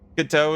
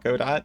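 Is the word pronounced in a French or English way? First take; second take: French; English. First: The word is pronounced the French way. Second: The word is pronounced the English way. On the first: This is the technically correct pronunciation. "the technically correct way to say it" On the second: This is the everyday non-French pronunciation. "you're not fucking French, so you'll always call it Godot"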